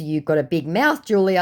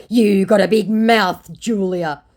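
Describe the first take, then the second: First: Said in the usual way. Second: Loud, slow, raised-pitch jibe; exaggerated quoted put-down; mock scammer insult. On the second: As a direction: act out his insult, loud and drawn out.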